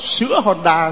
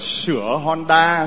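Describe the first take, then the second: First: The first word has the broken ngã tone. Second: The first word has the dipping hỏi tone. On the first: The sign is misread as selling milk. The speaker calls it wrong. "mà bà đọc là" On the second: The sign advertises repairs. The speaker calls it right. "nhìn nó coi này"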